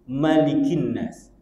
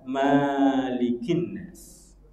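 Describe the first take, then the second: First: The first vowel of Malik is short. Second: The first vowel of Malik is long. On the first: God is called the king of mankind. The speaker calls it right. "bacaannya hanya satu" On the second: God is called the owner of mankind. The speaker calls it wrong. "Jangan dibaca"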